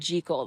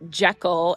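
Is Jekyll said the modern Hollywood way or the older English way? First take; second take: older English; modern Hollywood. First: Jekyll is said the older English way. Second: Jekyll is said the modern Hollywood way. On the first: "It is pronounced Gertrude Jekyll" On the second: "the new kind of more modern Hollywood pronunciation"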